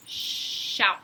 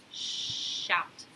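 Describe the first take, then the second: First: Said in the usual way. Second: Whispered sh-out drawn long; teacher sounding out a letter; sh sound stretched. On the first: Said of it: "so I'm gonna shout". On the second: Shown as a demonstration. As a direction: hiss the sh in Shout. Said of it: "is S H".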